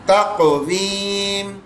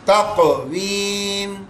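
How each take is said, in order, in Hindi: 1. q ध्वनि हल्की इको के साथ उछलती है। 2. q ध्वनि हल्की इको के साथ उछलती है।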